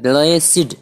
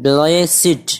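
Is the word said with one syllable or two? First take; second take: two; two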